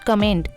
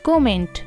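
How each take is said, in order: First: The first vowel sounds like 'uh'. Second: The first vowel sounds like 'o'. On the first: The speaker calls it wrong. "Not कमेंट" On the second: The speaker calls it right. "इसकी correct pronunciation होगी कोमेंट"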